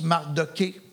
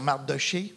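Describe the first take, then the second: First: The middle consonant is a hard k sound. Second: The middle consonant is a soft sh sound. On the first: Some other people say the name this way. "il y en a qui prononcent Mardoqué" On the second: This is the form chosen for use here. "moi je vais dire Mardoché"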